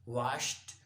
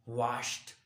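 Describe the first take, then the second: First: The ending is a clear t sound. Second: The same.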